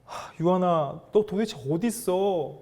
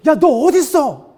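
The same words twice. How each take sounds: First: Worried parent calling. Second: Loud, high-pitched angry yell; angry demand. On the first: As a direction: call for your missing little child with concern. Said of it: "제가 제 어린 딸을 키우다 보니까". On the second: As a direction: demand it like someone furious. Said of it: "막 화를 내시면서". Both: Acted.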